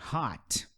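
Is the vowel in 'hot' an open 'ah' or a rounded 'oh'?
open ah. The vowel is an open 'ah' sound. This is how an American would say it. "se você estiver conversando com um americano, ele vai falar hot"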